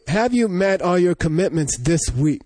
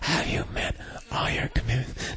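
First: It is said in a normal voice. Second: It is said in a weak whisper.

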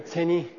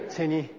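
Both takes have the same delivery.

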